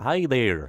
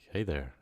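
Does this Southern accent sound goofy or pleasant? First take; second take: goofy; pleasant. First: A goofy, exaggerated Southern accent. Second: A smooth, pleasant Southern accent. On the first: The speaker calls it wrong. "Like goofy, yuck" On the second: The speaker calls it right. "Nice, nice"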